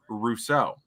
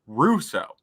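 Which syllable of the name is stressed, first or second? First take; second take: second; first. First: The stress is on the second syllable. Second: The stress is on the first syllable. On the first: The speaker calls it wrong. "I have always pronounced his name" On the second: The speaker calls it right. "They put the emphasis on the Ru as opposed to the so"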